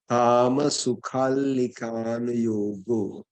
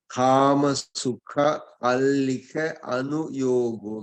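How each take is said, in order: First: Sukha and allika are run together as one. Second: Sukha and allika are said as separate words.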